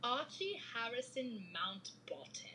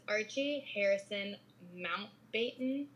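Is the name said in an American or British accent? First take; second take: British; American. First: It is said in a put-on British accent. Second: It is said in her normal American accent.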